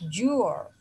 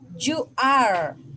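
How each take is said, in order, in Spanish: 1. Las palabras se unen en una sola sílaba corta. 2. Se dicen ambas palabras completas y por separado. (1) "forma corta" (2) "forma larga"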